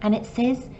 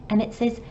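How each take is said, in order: Both takes have the same delivery.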